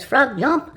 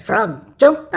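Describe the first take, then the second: First: Said in the usual way. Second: Frog jump shouted louder, insistent; louder command. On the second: Acted. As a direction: bark it louder since nothing happened. Frog ignores first command.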